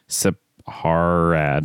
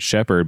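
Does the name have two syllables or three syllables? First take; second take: three syllables; two syllables. First: The name is said with three syllables. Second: The name is said with two syllables. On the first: The speaker calls it right. "but it's Sepharad" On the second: The speaker calls it wrong. "I kind of said shepherd"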